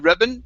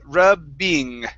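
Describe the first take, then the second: First: The word ends in a plain -in sound. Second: The word ends in a full -ing sound. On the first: The speaker calls it wrong. "If you just say rubbin" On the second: The speaker calls it right. "you do need to pronounce this ing sound"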